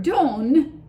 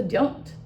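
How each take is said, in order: First: "don't" said without the T, ending on the n; "don't" with the final T left off; dropped T. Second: "don't" said fully, with its final T; "don't" as it is written; clear don't. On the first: Teacher showing a student how "don't" sounds without its T. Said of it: "without a T". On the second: Teacher giving the real word after the heard version. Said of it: "that was actually". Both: Shown as a demonstration.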